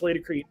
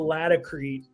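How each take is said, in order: First: It is said the Northeastern way. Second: It is said the Southern way. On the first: "If you're from the Northeast, ... people know it as Lady Creek" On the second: "If you go down to the South and and certainly out west, um, it's more of a Latacrete pronunciation"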